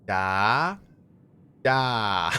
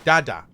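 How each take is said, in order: First: It is said slowly, syllable by syllable. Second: It is said at a normal pace.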